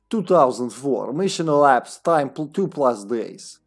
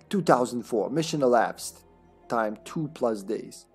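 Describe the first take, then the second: First: It is read in a put-on Slavic accent. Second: It is read in the speaker's normal accent.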